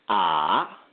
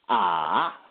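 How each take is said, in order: No difference in how they are said.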